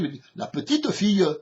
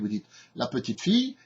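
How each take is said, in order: First: It is spoken with a southern Marseille accent. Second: It is spoken with a Parisian French accent. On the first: "et à Marseille, vous dites" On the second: "à Paris, vous dites"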